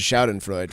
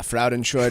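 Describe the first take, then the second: First: The word begins with a Sh sound. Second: The word begins with an F sound. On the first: The speaker calls it right. "the first letter is the S" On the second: The speaker calls it wrong. "You said Fraudenscheid"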